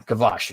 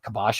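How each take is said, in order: First: The middle consonant is a V sound. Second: The middle consonant is a B sound. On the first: The speaker calls it right. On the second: The speaker calls it wrong.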